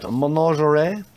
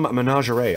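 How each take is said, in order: First: Mock-French menagerie, pitched higher with a rising end; French accent. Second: MENAGERIE said as men-ah-zhe-RAY; own pronunciation. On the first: Guessing how the French say the card name, mock French accent. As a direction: say it like a Frenchman would. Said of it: "that's how the French say it". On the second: Shown as a demonstration. Showing off a pulled card, menagerie pronounced men-ah-zhe-ray. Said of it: "I'll always say that that way".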